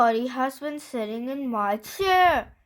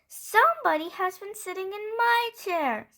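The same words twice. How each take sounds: First: It is said in a great big voice. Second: It is said in a middle-sized voice.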